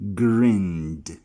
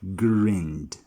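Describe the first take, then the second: Both takes have the same delivery.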